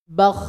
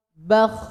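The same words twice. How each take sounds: First: Loosen the throat for "Bakh"; wet throat rasp. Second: "Bakh" pushed hard from a tight throat; dry forced rasp. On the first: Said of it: "ini contoh ngorok yang basah". (ngorok basah pada "Bakh") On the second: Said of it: "Kalau pakai tenaga akan kering, keras". (ngorok kering pakai tenaga) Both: Shown as a demonstration.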